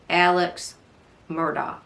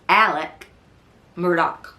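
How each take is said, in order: First: The first name ends with a ks sound. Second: The first name ends with a k sound. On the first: This is how the written name reads. "when you see it written, it looks like Alex Murdaugh" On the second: This is how locals in the South say it. "it's a southern pronunciation"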